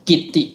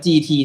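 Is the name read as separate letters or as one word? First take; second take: one word; letters. First: It is read as one word, kit-ti. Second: It is read as two letters, G T. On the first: The speaker calls it wrong. "ไม่ได้อ่านว่ากิตติ" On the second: The speaker calls it right. "เขาบอกว่าอ่านว่า"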